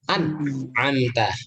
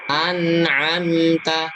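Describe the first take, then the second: First: The consonant sound stops abruptly, cut off. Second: The consonant sound flows on without stopping. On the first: The speaker calls it wrong. "Jadi seperti ada sak" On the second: The speaker calls it right. "Alirkan saja itu suaranya"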